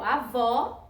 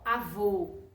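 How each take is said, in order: First: Avó with a stressed open aw at the end; open vowel, sound going up. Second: Avô lower, ending on a closed oh; closed vowel, sound going down. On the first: Teacher recapping for pupils, open final vowel in avó. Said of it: "o sonzinho vai pra cima". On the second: Teacher recapping for pupils, low closed vowel in avô. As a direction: drop the pitch and close the final o of avô. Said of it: "ele vai pra baixo". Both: Shown as a demonstration.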